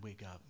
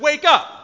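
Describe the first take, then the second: First: It is said softly and gently. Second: It is said loudly, as a yell. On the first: It is a casual morning wake-up call. "like your child, a friend, a grandchild, whatever, hey, it's time to wake up. It's morning time" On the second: It is an urgent warning to act. "He's out there and he yelled it"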